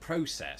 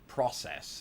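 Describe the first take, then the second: First: It is said with a British pronunciation. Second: It is said with an American pronunciation. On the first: "when I lived in the United Kingdom... pronounce it process" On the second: "the predominant pronunciation here of that particular word is process"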